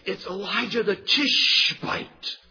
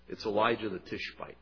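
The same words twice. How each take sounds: First: It is said angrily, with a hiss. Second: It is said as a calm, plain statement. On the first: The speaker resents and despises the man. The speaker calls it right. "You can just hear the hiss in his voice" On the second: The speaker is simply identifying the man. The speaker calls it wrong. "That's not the way he responded"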